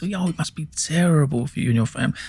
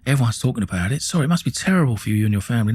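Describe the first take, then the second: First: Higher, smarmy mock sympathy on terrible; sarcastic. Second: Said in the usual way. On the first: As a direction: sneer it as fake concern. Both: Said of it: "Sarcasm at its best".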